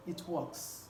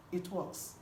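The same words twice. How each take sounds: The two takes are said the same way.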